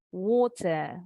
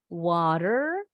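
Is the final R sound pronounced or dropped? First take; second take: dropped; pronounced. First: The final R sound is dropped. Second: The final R sound is clearly pronounced.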